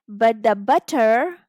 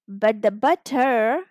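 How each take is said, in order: Both takes have the same delivery.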